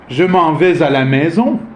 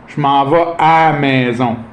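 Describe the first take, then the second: First: It is said in a standard International French accent. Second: It is said in a Quebec accent, stretching the à. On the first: "the international French" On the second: "on étire le à avant"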